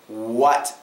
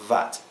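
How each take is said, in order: First: The word begins with a W sound. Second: The word begins with a V sound. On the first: The speaker calls it right. "It should be like this" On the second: The speaker calls it wrong. "Not vat"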